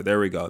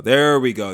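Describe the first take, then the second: First: Said in the usual way. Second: A louder, punchier There we go. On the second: Shown as a demonstration. Hyping himself up, a louder There we go. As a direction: punch There we go harder, falling at the end.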